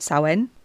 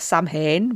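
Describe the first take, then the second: First: The word is said like 'sow-in'. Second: The word is sounded out letter by letter. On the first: The speaker calls it right. "but Samhain" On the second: The speaker calls it wrong. "Not Samhain"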